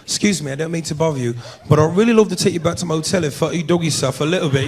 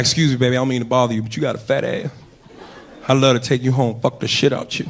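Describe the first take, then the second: First: Put-on smooth English accent pickup line; mock English accent. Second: Put-on low, easy American accent come-on; casual American pickup line; lightly put-on American accent. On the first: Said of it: "English accent, that just roll off the tongue different". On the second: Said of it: "in an American accent".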